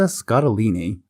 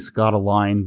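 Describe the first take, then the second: First: The name ends in an 'ee' sound, four syllables. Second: The name ends in a 'line' sound, three syllables. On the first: The speaker calls it right. "I believe that's how you pronounce it" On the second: The speaker calls it wrong. "because it could be Scottaline, but probably not"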